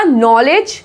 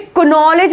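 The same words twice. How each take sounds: First: नॉलेज starting straight on n; silent k. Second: क्नॉलेज opened as ku-nol-ej; wrong sounded k. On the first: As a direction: say नॉलेज as nol-ej. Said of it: "के silent है". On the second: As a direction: misread क्नॉलेज with k before the n. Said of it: "नहीं बोलते हैं ना". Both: Shown as a demonstration.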